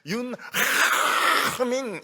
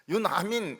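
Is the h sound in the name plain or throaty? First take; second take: throaty; plain. First: The name is said with a throaty h. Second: The name is said with a plain h. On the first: The speaker calls it right. "이러면 아우 정말 이 아람어 잘하신다고" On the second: The speaker calls it wrong. "이 하민이란 말이 없어요"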